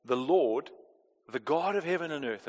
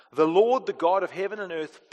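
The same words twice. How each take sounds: First: Said in the usual way. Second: Grandeur. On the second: Shown as a demonstration. Preacher reminding congregation who is calling them, grand proclamation. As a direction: proclaim THE LORD strongly, then ease off. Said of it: "just the grandeur of who is calling us".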